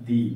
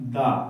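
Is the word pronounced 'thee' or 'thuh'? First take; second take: thee; thuh. First: The vowel is a long 'ee' sound. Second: The vowel is a short 'uh' sound. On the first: The next word starts with a vowel sound. "এর এখানে কি উচ্চারণ হচ্ছে? দি" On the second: The next word starts with a consonant sound. "এটা হবে দা"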